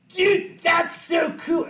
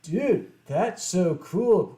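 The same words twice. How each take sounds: First: High, loud "Dude, that's so cool"; excited gush. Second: Slow cool delivery. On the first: Fan meeting the musician he loves, excited high gush. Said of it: "Actually, no, that was him". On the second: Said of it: "I actually don't remember how I said it". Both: Retold or imitated.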